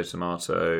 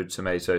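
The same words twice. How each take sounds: First: Tomato with a broad ah, to-MAH-to; British tomato. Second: Tomato with a long ay, to-MAY-to; American tomato. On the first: Showing Americans and Brits differ, British tomato. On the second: Showing Americans and Brits differ, American tomato. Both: Shown as a demonstration. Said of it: "how Americans and British people differ".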